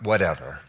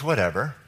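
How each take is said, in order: First: The word is said with a dismissive, shrugging tone. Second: The word is said sincerely and plainly. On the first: The speaker does not care. The speaker calls it wrong. "not whatever" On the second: It covers everything without exception. The speaker calls it right. "It means like everything"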